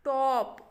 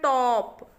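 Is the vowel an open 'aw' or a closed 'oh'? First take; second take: aw; aw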